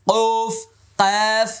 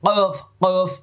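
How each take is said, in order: First: কফ from the tongue root, high and firm; correct letter. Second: কফ from mid-throat, the wrong way; wrong কফ for contrast; wrong throat sound. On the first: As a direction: say কফ from the back of the tongue. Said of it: "জিব্বার গোড়া থেকে উচ্চারণ হবে". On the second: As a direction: show the forbidden throaty কফ. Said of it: "আমি কিন্তু হলকের মধ্যখান থেকে বলছি না". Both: Shown as a demonstration.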